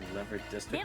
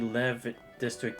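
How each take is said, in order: First: The name is said with the final R sounded. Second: The name is said with the final R silent. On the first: "I could be pronouncing it wrong" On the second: "like the R silent"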